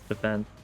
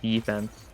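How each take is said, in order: First: The word is said with light emphasis. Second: The word is said with heavy emphasis. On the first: The speaker calls it right. "when it's defense" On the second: The speaker calls it wrong. "I don't know why I was pronouncing it like defense"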